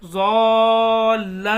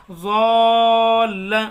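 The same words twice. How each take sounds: First: ज़ॉल्ला with a slight jolt on the doubled ल; louder, give ज़ॉल्ला's ल a little kick; ज़ॉल्ला, long ज़ॉ and pressed ल; light jolt on l. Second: ज़ॉल्ला held long, then a light jolt on the doubled ल; louder, slow: drag ज़ॉ then snap the ल in ज़ॉल्ला; ज़ॉल्ला with a long vowel and hard double ल; stretched madd with jolt. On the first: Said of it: "लाम के अंदर झटका देना हल्का सा". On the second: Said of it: "इस तरीके से पढ़ेंगे". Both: Shown as a demonstration.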